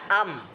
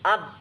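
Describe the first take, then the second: First: The m sounds open and nasal. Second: The m sounds blocked, close to a b. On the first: "Misalnya am" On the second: "Coba sekarang tutup bareng-bareng"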